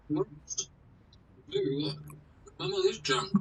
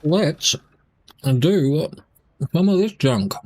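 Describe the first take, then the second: First: Much softer, barely audible; very quiet. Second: Words round a bite of biscuit; mouth full. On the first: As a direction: drop to a near-silent murmur. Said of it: "Can you actually hear me". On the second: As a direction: talk with a mouth full of food. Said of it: "talking with my mouth full". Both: Real, not acted.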